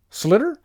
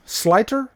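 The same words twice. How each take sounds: First: "Slitter" with a short i as in slit, higher; alternative name attempt. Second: "Sliter" with a long i as in slight, rising; questioning name attempt. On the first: Streamer guessing at a patron's surname, "Slitter" with short i. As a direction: try "Slitter" with a short i, questioning. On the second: Streamer unsure of a patron's surname, "Sliter" with long i. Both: Real, not acted.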